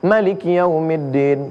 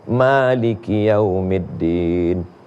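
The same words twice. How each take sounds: First: The first vowel of Maliki is kept short. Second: The first vowel of Maliki is held long. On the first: This is the Warsh reading used in Morocco. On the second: This is the Hafs reading used here.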